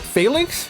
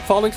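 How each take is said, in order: First: The first syllable sounds like 'fail'. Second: The first syllable sounds like 'fall'. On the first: The speaker calls it wrong. "That doesn't sound right to me. They don't fail" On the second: The speaker calls it right. "I call it Phalanx because, like I said, falling in line"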